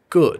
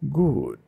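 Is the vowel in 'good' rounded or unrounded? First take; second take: unrounded; rounded. First: The vowel is a relaxed, unrounded uh sound. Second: The vowel is a rounded, chesty ooh sound. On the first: "rather than saying something like good, which is a uh" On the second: "it's a very chesty, almost like you're sighing like good"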